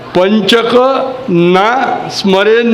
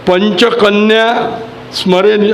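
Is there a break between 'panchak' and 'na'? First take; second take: yes; no. First: It is split into panchak and na. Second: It is said as one joined word, panchakanya. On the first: It means men should remember the group of five. The speaker calls it right. "पंचकन्या नाही म्हटलेलं आहे ते" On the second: It means the five maidens. The speaker calls it wrong. "काही जण चुकीचं म्हणतात"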